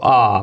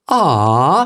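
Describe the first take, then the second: First: The pitch falls or stays flat at the end. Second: The pitch rises at the end. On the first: A plain reaction to something cute. "A man might see a puppy and go" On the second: An empathetic, caring reaction. "it goes up at the end"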